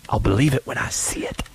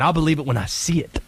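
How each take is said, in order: First: Said in the usual way. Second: Skeptical persona line. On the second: Shown as a demonstration.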